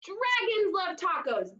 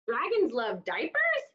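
First: Right answer. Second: Said in the usual way. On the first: Shown as a demonstration. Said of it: "that's it". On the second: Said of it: "That's not right".

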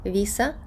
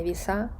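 First: Віса stressed on the first syllable; penultimate stress. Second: Віса stressed on the last syllable; wrong final stress. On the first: Teacher showing the right form, Віса stressed first. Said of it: "наголос перестрибує на попередній склад". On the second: Teacher showing the mistake, віса stressed last. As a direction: push the weight onto the final a of віса. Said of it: "а не віса". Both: Shown as a demonstration.

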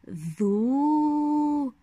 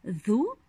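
First: ذو with the u held very long; long, sustained ذو; long vowel. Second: ذو cut short, a brief u; short ذو, not held; short vowel. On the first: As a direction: stretch the vowel of ذو into a long madd. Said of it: "ما المد الطويل المناسب له". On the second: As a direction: say ذو with a quick damma vowel. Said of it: "حركة الضمة". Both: Shown as a demonstration.

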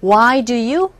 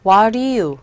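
First: "why do you" said slowly with each word apart; careful, separated "why do you"; full form. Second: "What do you" run together like "wah-ri-you"; reduced linked form. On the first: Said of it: "왜 그러냐면 why do you?". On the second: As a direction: blur "What do you" into one linked word. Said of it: "이렇게 발음되거든요". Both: Shown as a demonstration.

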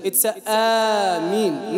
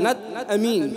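First: Amin said slow with the long ee held; slow careful Ameen; correct Ameen. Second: Amin clipped short like the name; wrong short Amin. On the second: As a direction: say Amin quick like the brother's name. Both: Shown as a demonstration.

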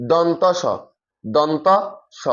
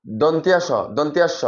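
First: দন্ত স as don-to sho, no i glide; careful দন্ত স, second take split by a pause; open, even syllables on দন্ত স; correct letter name. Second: দন্তিয়া স with an i glide, don-ti-a sho; common mispronunciation. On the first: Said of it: "এটা সঠিক উচ্চারণ হচ্ছে যে". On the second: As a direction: say দন্তিয়া স run together with tia. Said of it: "অনেকে উচ্চারণ করে কি". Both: Shown as a demonstration.

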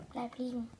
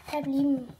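First: Softer, gentle repeat. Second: Said in the usual way. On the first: Pretend. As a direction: say it again much softer. Calming the injured horse.

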